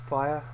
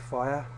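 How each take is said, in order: The two takes are said the same way.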